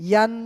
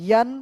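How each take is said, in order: No difference in how they are said.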